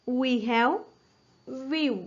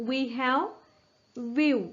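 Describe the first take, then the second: No difference in how they are said.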